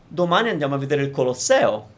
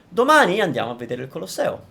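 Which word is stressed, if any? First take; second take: Colosseo; domani. First: The word Colosseo carries extra emphasis. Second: The word domani carries extra emphasis. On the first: It is the Colosseum and not another thing we will see. "flat, like flat, flat, flat, and then stress the Colosseo" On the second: It is tomorrow that we are going. "I would put a little more emphasis on the domani"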